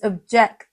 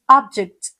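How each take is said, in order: First: The stress is on the second syllable. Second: The stress is on the first syllable. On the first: It means to disagree. "it simply means to disagree" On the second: It names a thing. "it simply means a thing"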